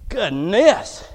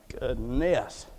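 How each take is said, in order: First: Openly voiced, rising exasperation; exasperated exclamation. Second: Low, soft murmur of dismay; restrained exclamation. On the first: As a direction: let it out indignantly, lifting at the end. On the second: Acted. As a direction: say it under your breath, pitched low. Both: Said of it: "let me rephrase and reframe".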